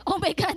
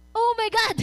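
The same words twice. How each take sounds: First: Said in the usual way. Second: Higher, louder mock shock; mock gasp. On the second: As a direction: fake the king's horrified exclamation. (kunwaring gulat na sigaw) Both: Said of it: "wala yun dun ah".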